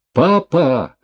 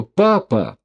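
First: High, loud cry of Papa; desperate cry. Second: Desperate cry. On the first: Daughter crying out to her falling father, desperate loud cry. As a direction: cry out in despair. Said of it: "отчаянно закричала Дашка". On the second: Daughter over dying father. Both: A narrator's reading.

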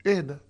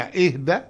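First: اهدى with a short falling tune. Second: اهدى with a rising tune at the end. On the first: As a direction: drop اهدى down firmly. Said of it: "وممكن تتسمع اهدى". (اهدى بنغمة هابطة قصيرة) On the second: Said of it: "ممكن تتسمع اهدى". (اهدى بنغمة صاعدة) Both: Shown as a demonstration.

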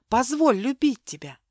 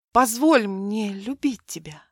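First: Позволь любить тебя pleaded aloud, voiced and rising; pleading. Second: Позволь мне любить тебя breathed in a whisper, no voice. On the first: Milena begging Mark to let her love him, voiced plea. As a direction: beg for it openly, voice up. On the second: Acted. Milena tenderly whispering her plea to Mark. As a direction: whisper it through trembling lips. Milena answers with trembling lips.

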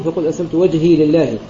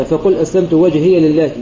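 First: وجهي said wajhī, ya silent, running straight into لله; reading with sukun. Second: وجهي said wajhiya, ya opened with a short a before لله; reading with fath. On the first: Teacher showing students the sukun reading of وجهي, ya kept silent. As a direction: keep the ya of وجهي still, no vowel after it. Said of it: "وغيرهم يقرأون بالسكون". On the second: Teacher showing students the fath reading of وجهي, ya voiced open. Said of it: "نافع بن عامر وحفص يقرأون بالفتح". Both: Shown as a demonstration.

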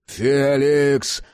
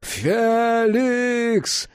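First: Drawn-out imploring name call; pleading. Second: High, long-held name scream; desperate cry. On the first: Jack begs Felix while dragged to door, pleading. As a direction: implore him with the name alone. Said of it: "взмолился Джек". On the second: Jack begs Felix a final time, desperately crying out. Second, escalated plea to Felix. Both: A narrator's reading.

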